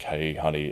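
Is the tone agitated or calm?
calm. The voice sounds calm and relaxed.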